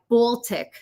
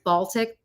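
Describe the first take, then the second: First: It is said with an old regional pronunciation. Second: It is said with the usual standard pronunciation. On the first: This is how the older relatives said it. "like Baltic instead of" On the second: This is how it is usually said. "instead of Baltic"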